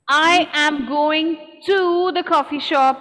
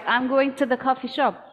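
First: Every word is said in full. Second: The words are contracted and 'to' is reduced. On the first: The speaker calls it wrong. "is not required" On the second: The speaker calls it right. "two is often pronounced T in connected speech"

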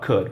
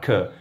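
First: The final D sound is clearly pronounced. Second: The final D sound is dropped. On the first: "Não precisa falar could" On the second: "jogar fora o som do D no could"

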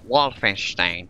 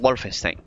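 First: The name is pronounced in a German way. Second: The name is pronounced in a Spanish way. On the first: The speaker calls it right. "era otra la pronunciación de... Es como" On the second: The speaker calls it wrong. "No es como"

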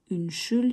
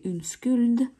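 First: The middle consonant is a 'sh' sound. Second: The middle consonant is a 'sk' sound. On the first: The speaker calls it right. "вот это «ш»" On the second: The speaker calls it wrong. "если вы скажете «унскульд», ... вас могут не понять"

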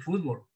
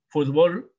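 First: The stress falls on the first syllable. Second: The stress falls on the last syllable. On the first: "no es igual que" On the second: "como aguda"

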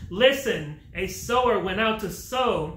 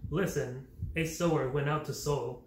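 First: It is called out in a projecting voice. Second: It is read in a flat monotone. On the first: The speaker calls it right. "calling out from such a far distance using his teacher's voice" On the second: The speaker calls it wrong. "read the Bible in a monotone, oftentimes glossing over punctuation, phrasing, and emotions, such as this"

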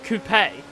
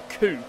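First: The word ends with a sounded final vowel. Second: The word ends without a final vowel sound. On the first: The speaker calls it right. "it's called a coupe. There's an E at the end of it" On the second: The speaker calls it wrong. "a two-door car is not called a coupe"

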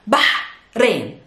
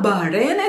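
First: The h is a throaty, breathy ha sound. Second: The h is plain, without a throaty sound. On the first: The speaker calls it right. "it's Bahrain. There's a ha sound" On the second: The speaker calls it wrong. "it's not Bahrain"

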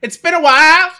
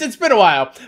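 First: It is said imitating the Staind singer's voice. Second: It is said in his normal reading voice.

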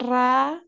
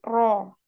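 First: The vowel after the r sounds like a. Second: The vowel after the r sounds like o. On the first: The speaker calls it wrong. "bukan ra" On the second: The speaker calls it right. "tetapi ro"

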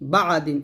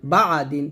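The two takes are said the same way.

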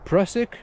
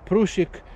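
First: The name is pronounced in an English way. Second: The name is pronounced in a Czech way. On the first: "Most of English speakers, you probably say Prusik" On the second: "if it's a Czech name, so it surely would be Prusik"

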